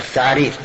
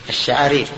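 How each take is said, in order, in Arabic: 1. تبدأ الكلمة بصوت th. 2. تبدأ الكلمة بصوت sh. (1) "كأنه نطق بها هكذا" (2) "يقول الشعارير"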